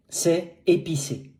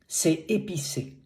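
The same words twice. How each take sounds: The two takes are said the same way.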